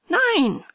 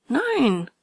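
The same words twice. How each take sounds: First: Nein much higher and louder, hard fall; heated denial. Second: Nein firmly denied, falling; stubborn denial. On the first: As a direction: fling the Nein back hotter. (hitzigeres, lauteres Nein) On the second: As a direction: deny it stubbornly. (trotziges Nein) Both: A narrator's reading. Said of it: "Immer hitziger ward der Streit".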